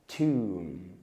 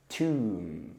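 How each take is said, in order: Both takes have the same delivery.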